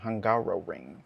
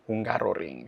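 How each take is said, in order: First: It is said with an English pronunciation. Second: It is said with a Spanish pronunciation.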